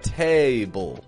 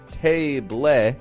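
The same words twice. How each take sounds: First: The second syllable has a schwa with dark L. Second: The second syllable has a full, clear vowel. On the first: The speaker calls it right. "but table. That's a schwa with a dark L" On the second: The speaker calls it wrong. "not table"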